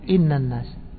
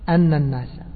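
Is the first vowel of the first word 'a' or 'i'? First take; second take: i; a. First: The first word begins with the vowel 'i'. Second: The first word begins with the vowel 'a'. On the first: "والباقون قرأوا إيش؟" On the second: "فهؤلاء قرأوا بفتح الهمزة أن الناس"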